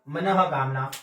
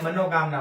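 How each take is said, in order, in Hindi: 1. पहला भाग 'manah' की तरह बोला जाता है। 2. पहला भाग 'mano' की तरह बोला जाता है। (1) "सही शब्द क्या होगा? मनः कामना।" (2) "हम क्या बोलते हैं? मनोकामना। और मनोकामना शब्द क्या है? गलत है।"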